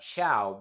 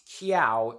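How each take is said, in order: First: The word begins with a ch sound. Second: The word begins with a k sound. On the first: The speaker calls it right. "It's just it's just Chow. It's just basic English" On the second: The speaker calls it wrong. "I thought the word was pre- pronounced Kiao"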